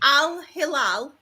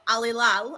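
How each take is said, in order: First: A small breath comes before a clearly sounded H. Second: Said quickly with the H sound dropped. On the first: The speaker calls it right. "taking a breath and then saying it. So if I go Al Hilal, I'm fine" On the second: The speaker calls it wrong. "but Al Hilal, I'm not"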